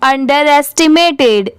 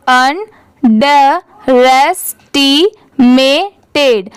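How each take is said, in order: First: अंडरएस्टिमेटेड run together as one word; connected, everyday-pace अंडरएस्टिमेटेड; at speed. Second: अंडरएस्टिमेटेड very slowly, a gap after each syllable; teacher's piece-by-piece अंडरएस्टिमेटेड; divided into parts. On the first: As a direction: say अंडरएस्टिमेटेड fluently without gaps. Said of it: "इसे speed में पढ़ेंगे". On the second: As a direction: separate अंडरएस्टिमेटेड as अन, ड, रेस, टी, मे, टेड. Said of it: "और भी part में divide कर दिया". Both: Shown as a demonstration.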